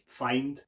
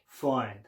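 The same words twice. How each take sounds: First: It is said in a non-Cockney accent. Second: It is said in a Cockney accent. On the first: "I'd say in my own accent" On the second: "I'd be like"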